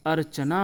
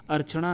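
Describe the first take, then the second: First: अर्चना with dental N; straight-tongued N in अर्चना; correct pronunciation. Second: अर्चना with retroflex N; heavy curled N in अर्चना; incorrect pronunciation. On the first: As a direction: say अर्चना as "archana", plain N. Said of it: "अर्चना होता है". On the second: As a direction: say अर्चना as "archaṇa", tongue curled on N. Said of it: "नहीं होता दोस्तों". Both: Shown as a demonstration.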